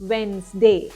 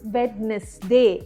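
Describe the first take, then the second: First: The first d sound is left out. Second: The first d sound is pronounced. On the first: The speaker calls it right. "വെഡ്നെസ്ഡേ അല്ല, വെൻസ്ഡേ" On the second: The speaker calls it wrong. "നമ്മൾ പലരും വെഡ്നെസ്ഡേ എന്നാണ് പറയാറ്"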